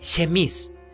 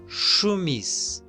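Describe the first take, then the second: First: The first vowel is a clear 'eh' sound. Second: The first vowel is a rounded 'uh' sound. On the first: The speaker calls it wrong. "está mal" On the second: The speaker calls it right. "¿Cómo pronuncio?"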